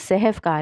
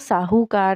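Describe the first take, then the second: First: The first vowel is short, then 'hw'. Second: The first vowel is long, then 'hoo'. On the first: The speaker calls it right. "जबकि ये सहवकार है" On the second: The speaker calls it wrong. "गलत pronounce किया जाता है"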